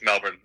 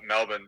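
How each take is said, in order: First: It is said New York-style, with an R sound. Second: It is said Australian-style, without an R sound.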